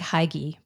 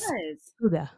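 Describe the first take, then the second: First: The word is sounded out as it is spelled. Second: The word is said with its Danish pronunciation. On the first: The speaker calls it wrong. "it looks like Hygge" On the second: The speaker calls it right. "but it's Hygge"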